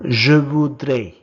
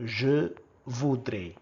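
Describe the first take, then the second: First: First take, projected clearly for the class; loud model word. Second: Said in the usual way. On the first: Shown as a demonstration. Teacher modelling a French word for learners, loud and clear. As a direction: call out the French word loudly. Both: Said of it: "you say I would like in French as".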